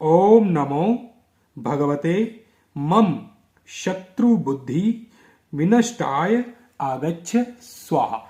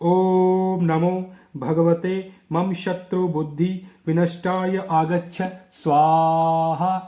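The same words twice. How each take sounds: First: The mantra is spoken slowly, word by word. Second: The mantra is spoken at a normal pace.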